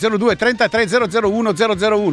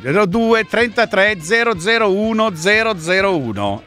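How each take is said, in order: First: The number is said at normal speed. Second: The number is said more slowly.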